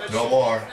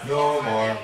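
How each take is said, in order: Both takes have the same delivery.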